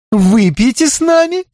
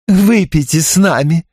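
First: High bright rising invite; gushing invitation. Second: Pushy repeat, stress on выпейте; insistent invitation. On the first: Tipsy Belinda inviting the detective to drink, high rising. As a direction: coax him over, sweetly. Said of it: "восторженно воскликнула Белинда Рид". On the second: Belinda insisting the detective drink, stress on выпейте. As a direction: press the drink on him again. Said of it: "не унималась Белинда". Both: A narrator's reading.

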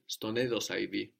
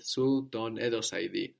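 First: Ston edosa idi with su ton merged into Ston; contracted form. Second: Su ton edosa idi with Su and ton kept apart; uncontracted Su ton edosa idi, two opening syllables; full separate form. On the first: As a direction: run su and ton together as one syllable, Ston edosa idi. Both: Shown as a demonstration.

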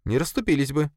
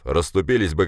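First: Much higher female-character voice; Sofia, contradicting. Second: Dismissive boss. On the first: Sofia contradicts her boss, objecting. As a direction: contradict him in a high, even voice. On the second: Boss explains to subordinate, dismissive. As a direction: state it as obvious, unbothered. Boss's take, contradicted by Sofia. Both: Acted.

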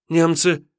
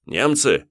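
First: Высоко и громче, выкрикнуть; торопливо согласиться в страхе; испуганный отрок. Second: Повыше, с хитрым вопросом; прощупать мальчишку; воевода переспрашивает. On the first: Отрок поддакивает. (отрок испуганно выкрикивает) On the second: (воевода хитро переспрашивает) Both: Acted.

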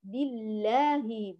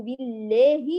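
First: بالله with a straight open aa; upright alif. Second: بالله with aa bent to e, "billeehi"; tilted alif. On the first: Teacher models the correction, alif upright and open. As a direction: keep the long a of بالله pure and open. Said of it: "بإقامة الألف". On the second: Teacher recaps the third mistake, alif inclined toward e. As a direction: lean the long a of بالله toward e. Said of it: "لا بإمالتها". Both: Shown as a demonstration.

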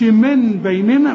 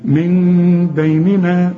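First: من بيننا with a plain n before b; wrong clear noon. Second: Long chanted hum in من, louder n-turned-m before b; correct iqlab. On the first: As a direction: put the tongue-tip n clearly in من, no m hum. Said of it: "ما تقولش من بيننا". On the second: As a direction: lips barely parted, hold a half-m in من before بيننا. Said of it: "انفراج في الشفايف". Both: Shown as a demonstration.

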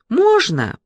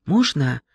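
First: High timid ask. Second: Said in the usual way. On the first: Acted. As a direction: ask shyly, higher. Timid girl asks to enter.

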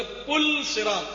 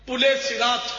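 First: "پل صراط" slowly as pul sirat, no linking e; careful "پل صراط" with vowelless l; correct pronunciation. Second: "پل صراط" as pul-e-sirat, linking e after pul; mispronounced "پل صراط", pu-le-si-rat; common wrong pronunciation. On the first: Shown as a demonstration. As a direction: stop on the l in "پل صراط". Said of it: "اصل تلفظ ہے". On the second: Retold or imitated. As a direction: join "پل صراط" with an e. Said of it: "عام طور پہ بولتے ہیں".

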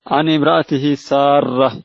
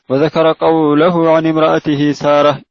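First: Slow reading, سارة as Saarrah; doubled r. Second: سارة said as Saarah, r not doubled; light single "r" in سارة. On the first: Student rereading as the sheikh corrected, سارة with doubled r. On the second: Student reading about Ibrahim's wife, سارة with single r. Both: Real, not acted. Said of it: "بتشديد الراء".

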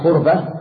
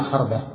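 First: خربة said "KHURba", u after kh, no vowel on r; rounded "u" opening خربة; variant with damma. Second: خربة said "KHARba", a after kh, no vowel on r; variant with fatha. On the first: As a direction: say خربة as KHUR-ba. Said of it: "بضم الخاء المعجمة". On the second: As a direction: say خربة as KHAR-ba. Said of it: "ويجوز فتحها وسكون". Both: Shown as a demonstration.

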